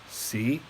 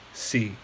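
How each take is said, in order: First: The pitch starts low and rises slightly. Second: The pitch starts low and falls lower. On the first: "low rising" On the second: "low falling"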